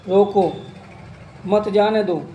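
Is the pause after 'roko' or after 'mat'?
after roko. There is a pause right after roko.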